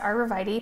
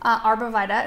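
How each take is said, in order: First: The word has its standard pronunciation. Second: The word has its regional pronunciation. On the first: "instead of arborvitae" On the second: "Arborvita instead of arborvitae"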